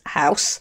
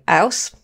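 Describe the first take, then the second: First: The word is said in a standard accent. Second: The word is said in a London accent.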